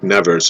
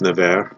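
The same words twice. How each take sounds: First: The final S is pronounced. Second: The final S is silent. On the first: "It's spelled like Nevers" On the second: "I would say it's Nevers. ... I think the S is not is silent"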